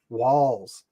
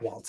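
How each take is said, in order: First: The name ends with a plain 's' sound. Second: The name ends with a 'ts' sound. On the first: The speaker calls it right. "It's Walls. Walls, not Waltz" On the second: The speaker calls it wrong. "It's not Waltz"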